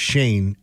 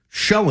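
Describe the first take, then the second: First: The name rhymes with 'rain'. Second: The name rhymes with 'go'. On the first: "it's pronounced Shane" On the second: "every single person has called him Show"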